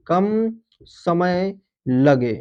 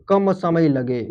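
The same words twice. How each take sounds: First: कम समय लगे drawn out word by word; slow emphatic repeat. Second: Said in the usual way. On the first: Shown as a demonstration. Teacher repeating the definition for students, very slow and deliberate. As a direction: stretch out कम समय लगे slowly so students note it. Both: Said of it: "जिनके उच्चारण में".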